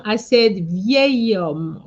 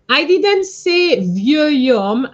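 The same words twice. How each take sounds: First: Slow vieil homme with the liaison clear; correct form. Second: Slow, loud vieux homme said as the mistake; mock-wrong vieux homme; wrong form. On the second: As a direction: vieux homme, drawn out and stressed as the error. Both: Shown as a demonstration.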